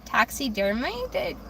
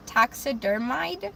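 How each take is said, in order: First: Taxidermied ending in "maid", drawn out; unsure mispronunciation. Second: Taxidermied ending in a questioning "mide"; unsure mispronunciation. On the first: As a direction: sound out taxidermied slowly as "taxi-der-MAID". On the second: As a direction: slowly try taxidermied to rhyme with "hide", rising. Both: Shown as a demonstration. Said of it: "I know I'm pronouncing that incorrectly".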